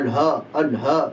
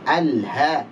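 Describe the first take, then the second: First: Alha with a dark heavy ha like alho; wrong thick alha. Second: Alha slowly with a light thin ha. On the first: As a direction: show the mistake, ha thickened. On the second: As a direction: model a clean thin ha in alha. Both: Shown as a demonstration.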